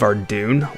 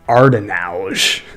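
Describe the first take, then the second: First: The name is said with two syllables. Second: The name is said with four syllables. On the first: The speaker calls it right. "The most egregious one is the city of Ardoon" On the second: The speaker calls it wrong. "I made up this pronunciation"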